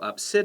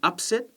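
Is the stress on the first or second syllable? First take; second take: second; first. First: The stress is on the second syllable. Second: The stress is on the first syllable. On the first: It is a feeling. "that's the verb, and that's on the other side" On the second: It is an event. "the noun, stress on the first syllable"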